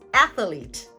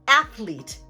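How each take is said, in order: First: An extra schwa is added in the middle. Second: The word has two syllables, no middle vowel. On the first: "adding an extra uh, the extra schwa sound right in the middle" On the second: "a two-syllable word"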